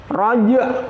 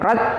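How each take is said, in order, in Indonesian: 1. Bunyi j dilepas dengan pantulan gema. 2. Bunyi j dipotong tanpa gema. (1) "Harus ada pantulannya" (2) "tidak boleh raj"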